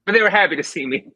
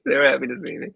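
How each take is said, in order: First: Cheerful, fast telling. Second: Said in the usual way. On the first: Acted.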